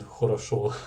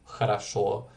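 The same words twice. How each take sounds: First: The unstressed vowels keep a full O sound. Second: The unstressed vowels are reduced to an A sound. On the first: The speaker calls it wrong. "which isn't хорошо" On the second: The speaker calls it right. "the O being unstressed, uh, turning into an A, like in хорошо"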